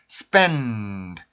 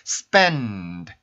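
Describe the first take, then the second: First: A nasal n resonates before the d. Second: The same.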